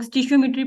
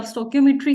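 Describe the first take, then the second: First: स्टिशियोमेट्री with a "sti-shio" start; common local pronunciation. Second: स्टोकियोमेट्री with a "sto-kio" start; hard k in स्टोकियोमेट्री, not "sh"; exact pronunciation. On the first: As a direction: say स्टिशियोमेट्री as people often do, "STI-shio-metry". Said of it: "आपकी जुबान में अक्सर लोग स्टिशियोमेट्री पढ़ते हैं". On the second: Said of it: "exact लव स्टोकियोमेट्री है". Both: Shown as a demonstration.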